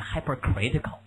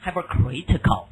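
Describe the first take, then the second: First: Second model of hypercritical; pronounce again. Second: Hypercritical clearly as hyper-critical; teacher modelling hypercritical; pronounce hypercritical. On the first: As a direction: repeat hypercritical carefully. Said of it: "注意啊，念". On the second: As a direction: say hypercritical syllable by syllable. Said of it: "注意啊，念hypercritical". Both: Shown as a demonstration.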